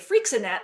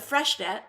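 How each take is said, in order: First: The name sounds like a hairspray brand. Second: The name is said the newly learned way. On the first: The speaker calls it wrong. "I used to say Freixenet like it was some sort of hairspray" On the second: The speaker calls it right. "I only recently learned how to pronounce that"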